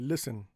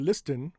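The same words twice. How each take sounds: First: The T sound is silent. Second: The T sound is clearly pronounced. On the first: The speaker calls it right. "we say" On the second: The speaker calls it wrong. "We don't say"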